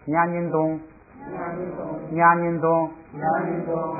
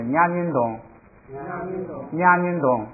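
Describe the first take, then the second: First: Nha音东 read with every syllable at full tone, chanted slowly; normal reading. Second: Nha音东 with 东 dropped to a light neutral tone; neutral tone ending. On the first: Teacher drilling the class, full tone on 东. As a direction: read nha音东 evenly, the last syllable 东 fully stressed. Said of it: "也可以读成那个就是正常读". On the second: Teacher imitating the Tibetan teacher, 东 light and unstressed. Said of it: "就读成轻声". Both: Shown as a demonstration.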